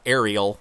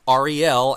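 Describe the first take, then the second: First: It sounds like an ordinary word, not letter names. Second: It sounds like the letter names R and L. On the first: The speaker calls it wrong. "not Ariel" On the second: The speaker calls it right. "as sort of like the letters of the alphabet, R E L"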